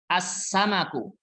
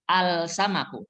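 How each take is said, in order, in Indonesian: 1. Huruf L menyatu dengan konsonan setelahnya. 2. Huruf L pada artikel dibaca dengan jelas. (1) "Alif lamnya tidak terdengar" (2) "Bacanya bukan al-samaku"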